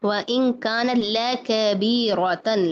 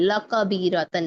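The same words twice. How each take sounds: First: लकबीरतन opening with a light "le"; slow recitation, thin L in लकबीरतन; spread thin lam. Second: लकबीरतन opening with a heavy "la"; thick lam. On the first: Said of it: "थोड़ा सा फैलाएं". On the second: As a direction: darken the first L of लकबीरतन. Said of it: "लकबीरतन नहीं". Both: Shown as a demonstration.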